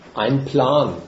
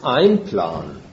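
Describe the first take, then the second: First: The phrase is said plainly, without special emphasis. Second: The phrase is said with strong, marked emphasis.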